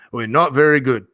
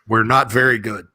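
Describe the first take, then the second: First: It is said in an Australian accent. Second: It is said in the speaker's ordinary accent.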